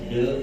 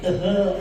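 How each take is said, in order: First: It is said as one short syllable. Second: It is said as two syllables, letter by letter. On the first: This is how the word is actually read. "dibaca de" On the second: This is how the spelling seems to suggest it. "mestinya itu tehe"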